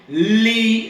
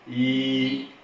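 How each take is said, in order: First: It starts with a plain tongue-tip L sound. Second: It starts with a palatal 'ly' sound. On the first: The speaker calls it wrong. "En vez de usar la punta de la lengua y decir li" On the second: The speaker calls it right. "tú vas a usar la parte superior... así plana, y vas a decir y"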